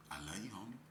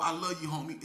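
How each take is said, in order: First: Very soft, low, sly voice; devil's luring. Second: Open, genuine affection in a normal speaking voice; sincere. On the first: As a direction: drop right down, quietly tempting like the devil. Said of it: "But the devil, he said too". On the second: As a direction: say it like you really mean it. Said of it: "a lot of 'em that really mean that". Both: Acted.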